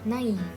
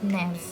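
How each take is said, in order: First: The vowels a and i are sounded separately. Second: The vowels merge into a single e sound. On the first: "naif yang menggunakan uh, aksen trema ini dibacanya naif" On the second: "kalau dia nggak menggunakan aksen, dia dibacanya menjadi nef"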